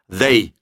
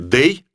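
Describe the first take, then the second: First: The word begins with a th sound. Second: The word begins with a d sound. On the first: "язык нужно высовывать между зубов" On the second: "Лучше скажите «дэй»"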